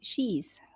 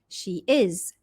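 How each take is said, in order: First: It is contracted into one syllable. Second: It is said as two full words.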